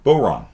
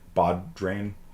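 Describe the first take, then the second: First: The word is said without d, ending 'rawn'. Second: The word is said with a d, ending 'drain'. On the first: The speaker calls it right. "No, Boron" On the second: The speaker calls it wrong. "you'd think it's pronounced Bodrain"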